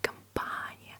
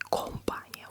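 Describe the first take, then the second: First: The unstressed first vowel sounds like 'a'. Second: The unstressed first vowel sounds like a full 'o'. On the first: The speaker calls it right. "we say компания. That's why O is pronounced as A" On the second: The speaker calls it wrong. "we do not say компания"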